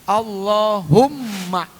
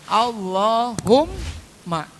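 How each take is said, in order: Both takes have the same delivery.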